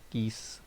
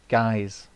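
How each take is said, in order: First: The name is said with an 'ee' vowel. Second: The name is said with an 'eye' vowel. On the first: The speaker calls it wrong. "Sorry for calling you Geese" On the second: The speaker calls it right. "so that's how it's pronounced, Guys"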